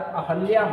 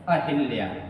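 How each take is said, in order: First: The vowel after the h is a short 'a'. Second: The vowel after the h is a short 'i'. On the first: The speaker calls it right. "तो उच्चारण अहल्या होना चाहिए" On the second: The speaker calls it wrong. "लेकिन उच्चारण ही इसका अशुद्ध हुआ है"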